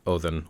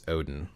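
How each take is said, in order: First: The middle consonant is a soft th. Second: The middle consonant is a hard d.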